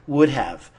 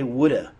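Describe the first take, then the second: First: Both words are said fully and separately. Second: 'Have' is reduced to a weak 'uh' sound. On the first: "That's just the two words separated" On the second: "So we just say"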